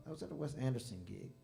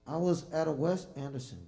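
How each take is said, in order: First: Said in the usual way. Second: Booming into the mic before adjusting it; way too hot on the mic, loud and high. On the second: Real, not acted. Musician starts the story too close to the mic, loud. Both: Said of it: "pull this slightly down".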